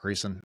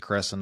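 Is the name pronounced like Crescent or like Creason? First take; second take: Creason; Crescent. First: The name sounds like Creason. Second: The name sounds like Crescent. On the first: The speaker calls it wrong. "not Creason" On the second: The speaker calls it right. "I think it's Crescent"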